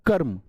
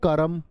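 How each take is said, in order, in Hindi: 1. र ध्वनि सीधे म से जुड़ जाती है। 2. र ध्वनि के बाद एक छोटा स्वर आता है। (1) "उसमें छिप चिपक के बोले जाएगा" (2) "रे पूरा होता तो बोलते कर्म"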